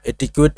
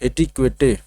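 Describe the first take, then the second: First: The word ends without an extra vowel sound. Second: The word ends with an extra vowel sound. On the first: The speaker calls it right. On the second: The speaker calls it wrong.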